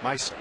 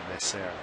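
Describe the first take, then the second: First: The name is said with a Spanish pronunciation. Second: The name is said with a French pronunciation. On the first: The speaker calls it right. "instead of the Spanish" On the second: The speaker calls it wrong. "I gave it the French pronunciation"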